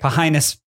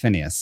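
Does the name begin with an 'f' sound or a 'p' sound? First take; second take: p; f. First: The name begins with a 'p' sound. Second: The name begins with an 'f' sound. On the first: The name is read letter by letter as spelled. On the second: This is how the name is actually said. "pronounced Phineas"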